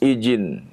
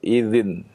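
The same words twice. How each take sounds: First: The middle consonant is a j sound. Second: The middle consonant is a soft dh sound. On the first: The speaker calls it wrong. "Atau menjadi jim" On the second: The speaker calls it right. "itu dengan dal"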